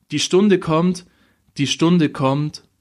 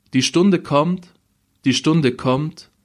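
No difference in how they are said.

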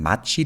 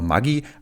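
First: The middle consonant is a soft 'tch' sound. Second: The middle consonant is a hard g sound. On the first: This is the original Swiss pronunciation. The speaker calls it right. "Magi heißt übrigens nicht Magi, sondern Matschi. Das kommt ja aus der Schweiz" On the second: This is how Germans usually say it. The speaker calls it wrong. "wir Deutschen sagen immer Magi"

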